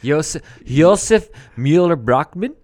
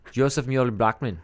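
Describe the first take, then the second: First: Josef Mueller-Brockman loud, in a misplaced Swedish-like accent; wrong accent. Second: Josef Mueller-Brockman said calmly, at usual pitch and level; corrected pronunciation. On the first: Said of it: "I did it with the wrong accent". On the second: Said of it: "It's German". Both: Shown as a demonstration.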